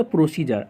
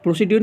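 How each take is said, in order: First: प्रोसीजर with a soft j, pro-see-jer; प्रोसीजर said the right way; correct pronunciation. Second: प्रोसीड्यूर with a hard d and yoor; प्रोसीड्यूर read letter by letter; wrong pronunciation. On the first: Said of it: "बल्कि प्रोसीजर". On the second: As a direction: say प्रोसीड्यूर as pro-see-dyoor, the mistake. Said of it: "प्रोसीड्यूर नहीं बल्कि प्रोसीजर". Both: Shown as a demonstration.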